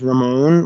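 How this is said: It is said with an English pronunciation.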